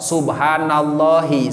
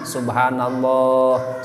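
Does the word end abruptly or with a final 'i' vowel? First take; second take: final i; abrupt. First: The word ends with a short final 'i' vowel. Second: The word ends abruptly without a final vowel. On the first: The phrase is joined to what follows. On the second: The phrase is stopped at its end. "dibaca disukunkeun diwaqofkeun macana subhanallah"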